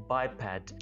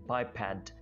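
No difference in how they are said.

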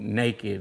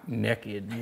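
First: The first vowel sounds like the vowel in 'day'. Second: The first vowel sounds like the vowel in 'neck'. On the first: This is the standard form of the word. The speaker calls it right. "the word was actually naked" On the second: This is how it was said growing up. The speaker calls it wrong. "and not nekkid. We just said it that way"

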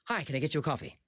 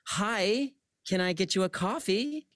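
First: The waiter sounds hurried, wanting to leave. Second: The waiter sounds annoyed and resentful.

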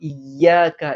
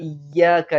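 No difference in how they are said.

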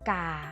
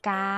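First: The word is said with a low tone. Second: The word is said with a level mid tone. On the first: "กาไม่เอก"

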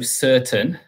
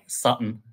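First: The word has a clear t sound and a longer vowel. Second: The word has a glottal stop and a short vowel. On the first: This is the standard pronunciation. "So certain" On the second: This is how the Scottish speaker says it. "but he's saying it more like Sutton"

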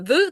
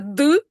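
First: The d is soft and weakened. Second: The d is a full, firm stop. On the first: The sound is in the middle or end of a word. "це десь середина. Або кінець" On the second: The sound begins a word. "це початок слова"

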